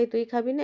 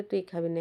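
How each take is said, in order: First: Pushy pigeon's challenge, pitched higher; mock-bully the other bird; playful higher squabbling pigeon voice; taunting pigeon. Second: Answering pigeon. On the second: Retold or imitated. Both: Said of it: "একে বলে".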